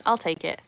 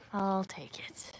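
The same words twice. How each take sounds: First: Said in the usual way. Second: Slow pleased whisper. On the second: Shown as a demonstration. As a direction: repeat it in a breathy whisper, slow. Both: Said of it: "Nick says I sound posh".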